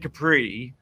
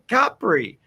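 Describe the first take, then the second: First: The stress is on the second syllable. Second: The stress is on the first syllable. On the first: The speaker calls it wrong. "You don't say Capri" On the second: The speaker calls it right. "The emphasis is on the first syllable"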